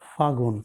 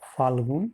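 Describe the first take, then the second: First: The l sound in the middle is dropped. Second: The l sound in the middle is kept.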